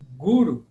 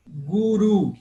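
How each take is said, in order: First: Guru with GU punched loud, ru dropping away; stress on penultimate syllable. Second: Guru with the final syllable, RU, hit loud; stress on last syllable. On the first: Teacher showing students a paroxytone, guru stressed on its first syllable. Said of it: "eu acentuei a penúltima sílaba". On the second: Teacher showing students an oxytone, Guru stressed on its last syllable. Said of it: "acentuei o, a última sílaba". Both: Shown as a demonstration.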